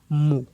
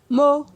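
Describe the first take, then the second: First: The syllable is said on a low tone. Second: The syllable is said on a mid tone. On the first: "un ton bas" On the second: "Ton moyen"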